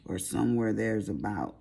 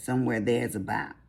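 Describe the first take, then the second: First: Said in the usual way. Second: Country accent on "Somewhere there's about". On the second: Shown as a demonstration. Vlogger showing her country voice, lightly put-on country accent. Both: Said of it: "That's my country voice".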